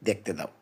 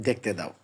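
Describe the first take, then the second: No difference in how they are said.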